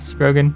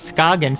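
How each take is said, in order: First: The name is said with an R sound. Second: The name is said with no R sound. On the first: The speaker calls it wrong. "I thought it, there was an R in it" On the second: The speaker calls it right. "it's actually pronounced Scoggins"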